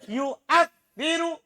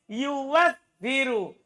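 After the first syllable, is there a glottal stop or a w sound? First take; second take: glottal stop; w sound. First: A glottal stop follows the first syllable. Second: A w sound follows the first syllable. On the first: "Hamzanya berharokat fathah. Sebelumnya dom" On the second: "Itu boleh diubah ke waw"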